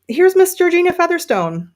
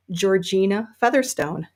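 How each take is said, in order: First: Higher, louder showman's reveal of Miss Georgina Featherstone; grand announcement. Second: Said in the usual way. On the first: Real, not acted. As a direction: present the hat like a star on stage. Grand introduction of new hat.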